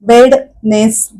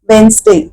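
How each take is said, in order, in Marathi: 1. पहिल्या स्वरानंतर d चा आवाज ऐकू येतो. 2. पहिल्या स्वरानंतर d चा आवाज ऐकू येत नाही. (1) "असं नाही म्हणत आपण" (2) "डायरेक्टली आपण कसं म्हणतो"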